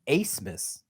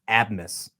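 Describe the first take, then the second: First: The first syllable sounds like 'ace'. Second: The first syllable sounds like 'ab'. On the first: The speaker calls it right. "His last name is actually pronounced Acemess, A C E" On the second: The speaker calls it wrong. "It looks like Max Abmas"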